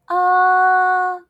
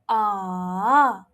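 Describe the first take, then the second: First: The pitch stays high and level. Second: The pitch dips low, then rises.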